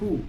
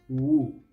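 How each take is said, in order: First: The word begins with an h sound. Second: The word begins with a w sound. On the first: The speaker calls it right. "la W es muda, así que la H se pronuncia como J" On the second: The speaker calls it wrong. "Muchos pronuncian esta palabra woo"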